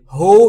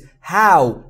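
First: The vowel is a plain oo sound. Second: The vowel glides from ah to oo. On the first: The speaker calls it wrong. "هو یا ها نیست" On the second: The speaker calls it right. "او او صداش به این صورته"

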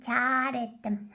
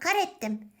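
First: The first vowel is long and soft. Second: The first vowel is short and plain. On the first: The speaker calls it right. "Kar ettim diyeceksin canım arkadaşım" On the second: The speaker calls it wrong. "Kar ettim ne ya?"

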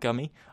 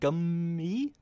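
First: The word is said at its normal length. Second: The word is stretched out with lengthened sounds. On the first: The speaker calls it wrong. "rather than Gummy" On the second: The speaker calls it right. "So it's more like Gummy"

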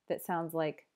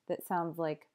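No difference in how they are said.

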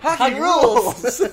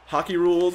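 First: It is said in an exaggerated, put-on voice. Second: It is said in a plain, ordinary voice.

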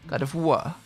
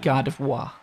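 First: The name is said with a French accent. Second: The name is said with an English accent.

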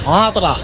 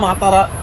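First: The middle vowel is dropped, leaving two syllables. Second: The name is said with three full syllables. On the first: This is how local people say it. The speaker calls it right. "বলছে মাতরা, not মাতারা, মাতরা" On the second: This is how a foreign visitor reads it. The speaker calls it wrong. "তো আমি তো বলছি মাতারা মাতারা"

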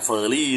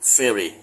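First: The word is said with a Thai accent. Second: The word is said with an English accent. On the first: The speaker calls it wrong. "อย่าเฟอร์รี่นะฮะแยกให้ดีนะระหว่างสำเนียงไทยกับอังกฤษ" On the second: The speaker calls it right. "เรือข้ามฟากเฟอร์รี่"

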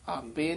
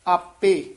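First: The word is clipped, as if cut short. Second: The word is fully pronounced, not cut short. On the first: The speaker calls it wrong. "ਇੰਝ ਲੱਗਦਾ ਜਿਵੇਂ ਹਲੰਤ ਲੱਗਦਾ ਨਾ, ਆਪੇ ਆਪੇ ਨਹੀਂ ਕਹਿਣਾ" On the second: The speaker calls it right. "ਆਪੇ ਹੀ ਉਚਾਰਨ ਕਰਨਾ"

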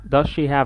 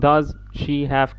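First: The words are blended together in one flow. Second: The words are said separately, not blended. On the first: The speaker calls it right. "على طول" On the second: The speaker calls it wrong. "منقولش does she have كده لا"

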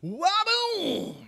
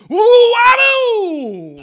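First: It is said with moderate energy. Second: It is said with very high energy.

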